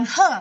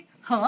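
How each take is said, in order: First: "he" without the questioning rise; wrong tone. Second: "he" rising like a question; second tone. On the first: Teacher showing the wrong take, "he" without rise. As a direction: say "he" falling away, not lifting. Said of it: "bukan he". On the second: Teacher showing the correct second tone, rising "he". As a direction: lift "he" upward from low. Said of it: "kalau nadanya nada dua". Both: Shown as a demonstration.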